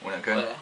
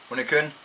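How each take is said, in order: First: It is said in a standard Danish accent. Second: It is said in a South Jutlandic accent.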